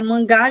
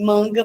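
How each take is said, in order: First: The stress is on the last syllable. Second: The stress is on the first syllable. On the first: A comic book, or mocking someone. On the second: A sleeve or a mango.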